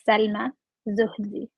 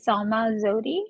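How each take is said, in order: First: The name is said with an Egyptian pronunciation. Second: The name is said with an American pronunciation. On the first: "Egyptian way of saying it" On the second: "the American way of saying it"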